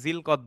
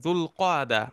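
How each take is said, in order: First: It begins with 'zil' and is said as one word. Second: It begins with 'dhul' and ends with 'qada'. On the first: This is the everyday local form of the name. The speaker calls it wrong. "আমরা বাংলায় জিলকদ বলি" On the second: This is the original form of the name. The speaker calls it right. "আসলে শুদ্ধ উচ্চারণ হচ্ছে দুল কাদা"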